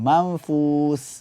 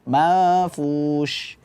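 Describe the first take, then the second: First: The word ends with a plain s sound. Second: The word ends with a spread sh sound. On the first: The speaker calls it wrong. "tertukar dengan sin ... enggak" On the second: The speaker calls it right. "menyebarnya nafas"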